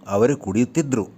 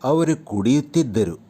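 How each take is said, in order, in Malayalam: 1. അവസാനഭാഗം 'dru' എന്ന് ചുരുക്കി പറയുന്നു. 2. അവസാനഭാഗം 'ddaru' എന്ന് പൂർണ്ണമായി പറയുന്നു.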